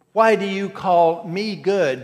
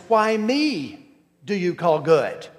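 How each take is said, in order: First: Slow, WHY leaned on and louder; Why do you call me good, WHY weighted and slow; stress on why. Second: Why ME do you call good, ME set apart and lifted; stress on me. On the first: Preacher quoting Jesus to the young man, slow, stress on WHY. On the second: Preacher showing the Greek word order to his congregation, stress on ME. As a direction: hit ME, then a short pause before the rest. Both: Shown as a demonstration. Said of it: "The emphasis is on me".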